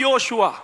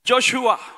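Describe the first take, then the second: First: The name begins with a 'yo' sound. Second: The name begins with a 'jo' sound. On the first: This is the Tamil form of the name. "தமிழ்ல நாங்க சொல்லுவோம்" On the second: This is the English form of the name. "ஆங்கிலத்தில்"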